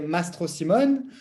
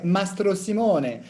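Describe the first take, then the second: First: The name is said with a French accent. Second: The name is said with an Italian accent. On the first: This is how it is said in France. "as I grew up in France, we say" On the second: This is how Italians say it. "the Italians would say"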